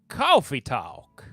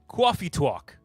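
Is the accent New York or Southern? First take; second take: Southern; New York. First: It is spoken in a Southern American accent. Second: It is spoken in a New York accent. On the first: "I don't know why I defaulted to Southern" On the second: "I got to get in the New York accent"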